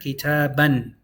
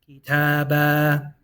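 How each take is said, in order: First: The word ends with an n sound. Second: The word ends on a vowel, without n. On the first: The speaker keeps going without stopping on the word. "Just pronounce it once" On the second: The speaker stops on the word. "Whenever you stop on it, ... you're going to pronounce the alif"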